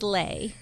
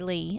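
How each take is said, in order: First: The vowel sounds like the one in day. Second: The vowel sounds like the one in see. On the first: This is how the mother says the name. "she goes, it's like sleigh. So she says lay" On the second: This is how the speaker and her father say it. "and I say Lee"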